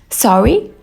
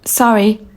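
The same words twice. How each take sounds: First: The pitch rises at the end of the word. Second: The pitch falls at the end of the word. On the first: The speaker is asking for a repeat. The speaker calls it right. "raise your intonation at the end of the word, as you would when asking a question" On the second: The speaker is apologizing. The speaker calls it wrong. "It's like you're apologizing"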